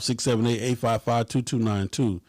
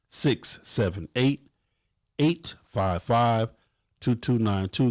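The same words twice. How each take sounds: First: The number is said at normal, quicker speed. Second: The number is said slowly and deliberately.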